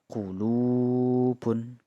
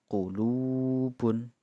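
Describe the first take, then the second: No difference in how they are said.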